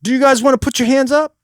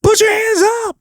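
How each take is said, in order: First: Raised-pitch stage question; politely poll the audience, pitched up; asking the crowd. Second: Very high rock scream; shouted command. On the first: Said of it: "Don't do that". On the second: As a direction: scream it as an order to the crowd. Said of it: "I actually like to give commands". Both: Shown as a demonstration.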